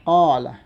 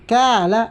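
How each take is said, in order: First: It begins with a deep throat q sound. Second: It begins with a plain front k sound. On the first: The speaker calls it right. "Kailangan qala" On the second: The speaker calls it wrong. "hindi mo natamaan ang tamang qaf"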